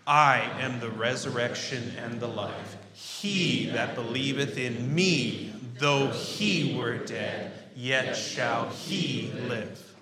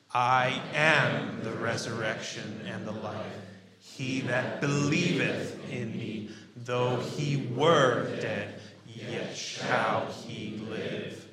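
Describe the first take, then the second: First: Loud, slow recitation punching "I", "He", "me" and "he"; stress on the pronouns. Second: Very slow, loud recitation stretching "am", "believeth", "were", "shall"; stress on the verbs. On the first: Preacher leading congregation in recitation, pronouns heavily stressed: "I", "He", "me", "he". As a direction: stretch out every pronoun, "I", "He", "me", "he", loudly. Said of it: "we're primarily highlighting the pronouns".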